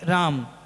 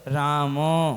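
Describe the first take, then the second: First: The word ends on a bare consonant. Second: The word ends with a full vowel sound. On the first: The speaker calls it wrong. "ये व्यंजन अशुद्ध है" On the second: The speaker calls it right. "उसका उच्चारण होना चाहिए"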